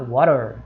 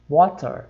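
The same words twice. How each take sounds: First: American accent, with the T softened like D. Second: British accent, with a clearly pronounced T. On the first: "o inglês americano vai falar water" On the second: "o inglês britânico vai falar water"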